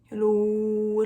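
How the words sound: It is said in a low voice.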